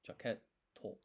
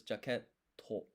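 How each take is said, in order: First: Jaket, a clear silent beat, then a stressed to; pause before to. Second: Jaket, then a beat of silence, then to; pause before to. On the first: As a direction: leave the gap between Jaket and to. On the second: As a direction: hold a short silence before to. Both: Shown as a demonstration. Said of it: "Did you hear the, the pause?".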